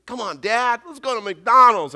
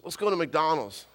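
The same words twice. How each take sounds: First: Put-on louder, higher pleading kid; insistent child. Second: Said in the usual way. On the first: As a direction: imitate a boy pestering his dad. Boy insists after being refused.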